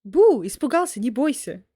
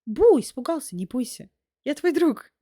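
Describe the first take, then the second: First: Playful spooky meme voice. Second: A light mock scare, then friendly; playful spooky meme voice. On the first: Pretend. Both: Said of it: "need to do, like, a meme like that".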